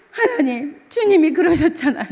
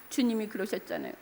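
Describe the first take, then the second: First: Crying prayer. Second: Tearful murmur. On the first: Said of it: "그래서 막 울면서 그러면서 잤어요". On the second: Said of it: "눈물 콧물 흘리면서". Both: Retold or imitated.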